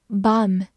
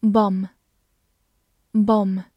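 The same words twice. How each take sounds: First: American "bomb" with a wide-open mouth; wide-vowelled American "bomb"; American pronunciation. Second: Said in the usual way. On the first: Shown as a demonstration. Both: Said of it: "美式发音口型比较大".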